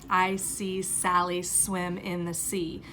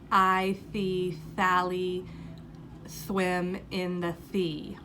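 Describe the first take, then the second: First: The s sounds are clear, crisp hissing sounds. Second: The s sounds come out as th sounds.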